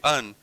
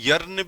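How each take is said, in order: First: The word starts without any y sound. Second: The word starts with a clear y sound. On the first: "इसमें वाई silent रहेगा" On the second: "अब कोई यर्न भी बोल दे"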